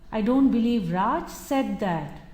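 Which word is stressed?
said. The word said carries the main stress. It may have been thought but not said aloud. "He might have contemplated it, but actually having said that may not be possible"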